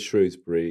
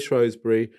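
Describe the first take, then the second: First: It is said in an ordinary pronunciation. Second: It is said in a posh pronunciation. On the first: "everyone else says Shrewsbury" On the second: "the posh people say Shrewsbury"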